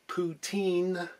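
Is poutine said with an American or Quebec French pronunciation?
American. It is said with an American-style pronunciation. The speaker calls it wrong. "it's not poutine"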